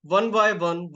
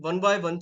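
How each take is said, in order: First: Said in the usual way. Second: One by one drawn out slowly, each word separate; slower repeat. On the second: Shown as a demonstration. Teacher to students, stretching one by one slowly. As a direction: spell out one by one slowly, step by step. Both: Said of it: "धीरे-धीरे जब हम".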